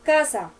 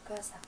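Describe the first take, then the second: First: The word is said loudly and forcefully. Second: The word is said quietly and low. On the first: "pero más duro" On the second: "en un tono bajito"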